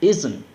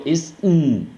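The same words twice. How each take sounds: First: "Isn't" as quick "izen", T dropped; small schwa before N, falling; fluent pronunciation. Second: "Isn't" split into "is" plus long hummed N; no vowel before the drawn-out N; wrong pronunciation. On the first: Teacher giving the correct model, smooth reduced "Isn't". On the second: Teacher showing what not to say, disjointed "Isn't". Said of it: "No digo". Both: Shown as a demonstration.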